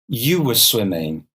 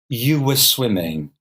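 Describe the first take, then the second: The two takes are said the same way.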